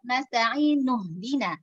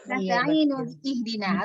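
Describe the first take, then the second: First: The hamzah is dropped and the words are linked. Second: The hamzah of ihdina is pronounced separately. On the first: The hamzah is treated as a hamzah wasl. The speaker calls it right. "harusnya kan" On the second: The hamzah is treated as a hamzah qat'. The speaker calls it wrong. "kalau kita nyambung jadi salah"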